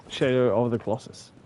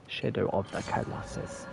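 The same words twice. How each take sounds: First: Said in the usual way. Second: "Shadow of the Colossus" mumbled softer, words slurred together. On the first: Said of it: "I need to enunciate". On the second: Shown as a demonstration. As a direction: slur "Colossus" under your breath. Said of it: "Sorry, I need to enunciate".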